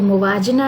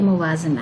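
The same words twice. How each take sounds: First: The middle consonant is a plain j sound. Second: The middle consonant is a z sound. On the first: The speaker calls it wrong. "इसको मुवाजना ना बोले" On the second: The speaker calls it right. "ये मुवाजना है"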